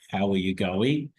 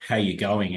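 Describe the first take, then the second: First: It sounds warm and genuinely interested. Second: It sounds casual and perfunctory.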